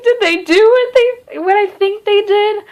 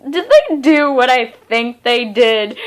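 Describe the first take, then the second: First: Much higher, excited "Did they do what they" in disbelief; shocked disbelief. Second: Said in the usual way. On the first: Retold or imitated. Reader reacting to an implied love scene, stunned. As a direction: gasp it out as if you can't believe it. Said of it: "I was just like". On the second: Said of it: "I was like".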